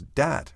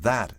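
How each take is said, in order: First: The word begins with a d sound. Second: The word begins with a th sound. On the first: The speaker calls it wrong. "with d" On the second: The speaker calls it right. "with th"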